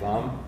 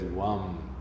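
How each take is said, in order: First: It begins with a clear V sound. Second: It begins with a W-like sound. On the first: "if you say Vam, perfectly okay. But it's somewhere a bit subtler than that" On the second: "sometimes you'll hear it as Wam"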